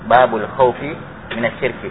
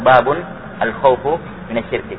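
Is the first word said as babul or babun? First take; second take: babul; babun. First: Babul runs into khaufi, ending in -i. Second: Babun ends in -un, then al-khaufu ends in -u. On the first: "Bisa dibaca babu enggak pakai tanwin, tapi al-khaufnya di kasrah" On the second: "Bisa dibaca babun ditanwin ba-nya"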